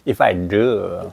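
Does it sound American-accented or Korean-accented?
American-accented. It is said with a tense-tongued American-style pronunciation. The speaker calls it right.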